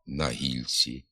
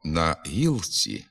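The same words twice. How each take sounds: First: «на гільці» with soft ль, said softer; softened л. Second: Said in the usual way. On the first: Shown as a demonstration. Teacher demonstrates the spoken form quietly. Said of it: "а вимовляємо". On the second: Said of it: "Пишемо".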